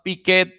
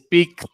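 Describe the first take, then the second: First: The ending is an extra syllable. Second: The ending is a single t sound. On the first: The speaker calls it wrong. "it's not picket" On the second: The speaker calls it right. "If you if you quit ed and add a t"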